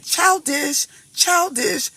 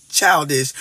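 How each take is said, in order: First: Higher, mocking sing-song on Childish. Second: Said in the usual way. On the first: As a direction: tease the word Childish up high like a taunt. Mocking the fear of rides.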